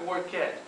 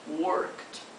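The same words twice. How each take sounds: First: The ending is an extra 'ed' syllable. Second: The ending is a bare 't' consonant. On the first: The speaker calls it wrong. "Às vezes achamos que todo verbo que termina em ed vai ser pronunciado ed... Não dizemos assim" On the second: The speaker calls it right. "Observe que depois do work temos um som de T"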